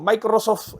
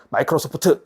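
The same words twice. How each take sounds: First: It is read with Spanish pronunciation. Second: It is read with Korean-English pronunciation. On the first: "스페인어로 표현한다고" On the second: "콩글리시 하시면 안 되고"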